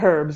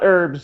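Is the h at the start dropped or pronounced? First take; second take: pronounced; dropped. First: It is said the Australian way, with h. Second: It is said the American way, without h.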